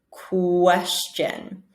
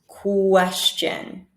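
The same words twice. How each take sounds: The two takes are said the same way.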